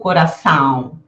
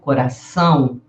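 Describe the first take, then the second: First: The vowel is said without nasal sound. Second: The vowel is said with nasal sound. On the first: The speaker calls it wrong. "Eu não digo coração" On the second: The speaker calls it right. "eu digo coração"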